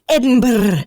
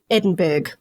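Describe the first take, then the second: First: The name ends in a Scottish-style 'burra' sound. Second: The name ends in an American-style 'burg' sound. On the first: This is the town's original name. "So previously" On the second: This is the town's current name. "but now"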